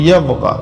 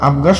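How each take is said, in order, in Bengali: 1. শব্দটি 'y' ধ্বনি দিয়ে শুরু হয়। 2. শব্দটি সরাসরি একটি স্বরধ্বনি দিয়ে শুরু হয়। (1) "আমাদের বলতে হবে ইয়াবগা" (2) "আবগা শব্দটি ভুল হবে"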